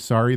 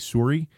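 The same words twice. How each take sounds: First: It is said in a general, non-regional accent. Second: It is said in an East Coast Canadian accent. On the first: "they don't say sorry" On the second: "East Coast Canadians ... they say sorry"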